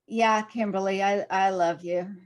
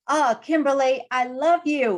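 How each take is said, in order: First: It is said flatly and without enthusiasm. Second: It is said warmly and enthusiastically.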